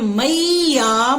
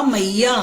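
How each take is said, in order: First: "मैया" slowly stretched as मई-या; teacher's drawn-out "मैया" with the ai glide; sounding out. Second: Said in the usual way. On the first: Shown as a demonstration. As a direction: hold both syllables of "मैया". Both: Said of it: "अगर हम बोलते हैं".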